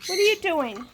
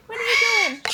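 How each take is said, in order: First: Said in the usual way. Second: Much higher, sing-song pet voice. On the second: Real, not acted. Owner cooing at her parrot, high pet voice. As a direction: coo the question up high.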